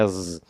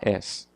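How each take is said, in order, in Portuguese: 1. A palavra termina com um som de Z zumbido. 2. A palavra termina com um som de S chiado. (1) "A e o som de Z. Então, ó, ele vai vibrar" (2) "em brasileiro fala as"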